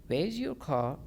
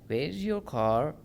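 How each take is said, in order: No difference in how they are said.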